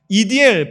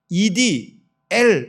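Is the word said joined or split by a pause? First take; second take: joined; split. First: The word is said without any internal pause. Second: A pause splits the word before the last syllable. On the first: It is read as a person's name. "붙여 읽으면" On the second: It gives a different interpretation. "이렇게 띄어 읽을 수도 있습니다"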